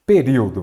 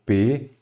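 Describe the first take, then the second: First: Said in the usual way. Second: "Período" broken into separate syllables with long pauses. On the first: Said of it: "vamos lá de novo". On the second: Shown as a demonstration. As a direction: split "Período" as pe, ri, o, do. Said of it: "Vamos separar em sílaba". ("Período" pausado, sílaba por sílaba)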